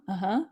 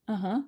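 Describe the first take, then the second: No difference in how they are said.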